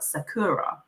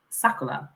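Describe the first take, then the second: First: Sakura said slowly with an English R; English spelling pronunciation. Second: Sakura with the R turned into an L; Japanese pronunciation. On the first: Guest explaining her middle name, Sakura with English R. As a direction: say Sakura as spelt, with an R. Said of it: "in English is spelt Sakura". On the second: Guest giving real pronunciation, Sakura said with Japanese L-like R. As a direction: say Sakura as "Sakula". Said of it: "the real pronunciation is Sakura". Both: Shown as a demonstration.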